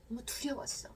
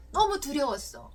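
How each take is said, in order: First: Soft breathy whisper of fear. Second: Said in the usual way. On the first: Shown as a demonstration. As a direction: breathe the words out, no voice. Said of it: "라고 여러분의 감정을 이렇게 표현해 보는 거". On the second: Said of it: "라고 그 감정을 사용해서".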